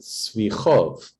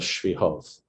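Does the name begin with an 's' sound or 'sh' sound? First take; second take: s; sh. First: The name begins with a plain 's' sound. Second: The name begins with an 'sh' sound. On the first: This is how earlier rabbis said the name. "always pronounced it Svichov" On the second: This is the local way to say the name. "instead of Shvihov"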